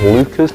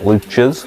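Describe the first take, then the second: First: The middle consonant is a plain k sound. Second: The middle consonant is a ch sound. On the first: The speaker calls it right. "that's how you pronounce it by the way" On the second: The speaker calls it wrong. "not Luchas"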